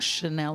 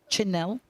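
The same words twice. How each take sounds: First: It begins with a soft sh sound. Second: It begins with a hard ch sound. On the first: The speaker calls it wrong. "not Chanel" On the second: The speaker calls it right. "they're both the hard C H's"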